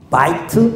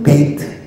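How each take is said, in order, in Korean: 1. 첫 모음은 'ai'처럼 소리 나요. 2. 첫 모음은 'ei'처럼 소리 나요. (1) "바이트라고도 있고" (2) "베이트라고도 읽어요"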